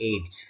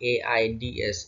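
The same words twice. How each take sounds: First: "এইডস" as one syllable, like "aids"; single joined-up word "এইডস", not spelled. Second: "এআইডিএস" as four letters, A-I-D-S; distinct letter names in "এআইডিএস"; spelled out letter by letter. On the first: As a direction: blend the letters into "এইডস". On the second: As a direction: spell "এআইডিএস" slowly, each letter named. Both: Shown as a demonstration. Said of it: "এটা না বলে বলছি আমরা".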